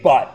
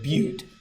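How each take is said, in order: First: The vowel is a short 'uh' sound. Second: The vowel is a long 'yoo' sound. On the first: The speaker calls it wrong. "so you don't say but" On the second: The speaker calls it right. "so they pronounce it Butte"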